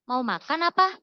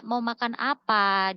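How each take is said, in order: First: "Mau makan apa" quicker, louder, with "apa" rising at the end; second-meaning question. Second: "Mau makan apa" slow, drawn out on "apa"; open question. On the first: Showing the other possible meaning, rising offer question. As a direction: lift "apa" sharply as if offering. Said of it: "Yang kedua, bisa jadi". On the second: How she understood the chat, slow open question. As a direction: stretch "apa" as a real what-question. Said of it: "aku pikir dia tanya". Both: Shown as a demonstration.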